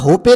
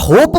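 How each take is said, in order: First: The word ends with an extra vowel sound. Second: The word ends on the p sound. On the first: The speaker calls it wrong. "याला होपे नाही म्हणत" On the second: The speaker calls it right. "याला होप म्हणतात"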